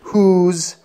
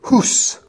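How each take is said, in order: First: The word ends with a buzzing z sound. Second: The word ends with a hissing s sound. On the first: The speaker calls it right. "has never ended with an S sound" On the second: The speaker calls it wrong. "Otherwise, you would say"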